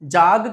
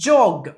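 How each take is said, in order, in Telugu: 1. అచ్చు 'ah' లాగా వినిపిస్తుంది. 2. అచ్చు 'oh' లాగా వినిపిస్తుంది. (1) "జాగ్ కాదు" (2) "జోగింగ్ రైట్"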